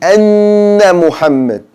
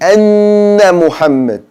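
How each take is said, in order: First: The N sound is held with nasal buzz. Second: The N sound is held with nasal buzz.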